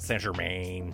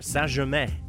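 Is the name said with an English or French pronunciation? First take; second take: English; French. First: The name is pronounced the English way. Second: The name is pronounced the French way. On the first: The speaker calls it wrong. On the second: The speaker calls it right. "I'm going to do a French pronunciation here"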